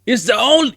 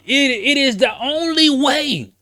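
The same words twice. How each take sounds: First: Said in the usual way. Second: "only" gedehnt und laut, langsam und hoch gezogen; slow, raised shout leaning on "only"; stress on only. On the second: Acted. Hammering the point home.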